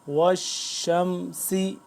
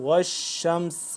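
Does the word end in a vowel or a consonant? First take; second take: vowel; consonant. First: The word ends with a short vowel. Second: The word ends on a consonant. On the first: The reading continues without stopping. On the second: The reader stops on this word.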